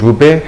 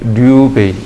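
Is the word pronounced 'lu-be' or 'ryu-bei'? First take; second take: lu-be; ryu-bei. First: It begins with 'lu' and ends with 'be'. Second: It begins with 'ryu' and ends with 'bei'. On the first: This is how Korean workers say it on site. "그냥 우리는 루베, 헤베 이렇게 이야기를 해요" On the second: This is the original Japanese reading. "입방미가 류베이"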